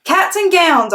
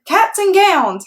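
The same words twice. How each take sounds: First: High, loud holler. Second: High, slow class holler; whole class hollers back. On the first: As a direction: holler it with joy. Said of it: "I hollered". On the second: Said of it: "hollered room nine". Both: Acted.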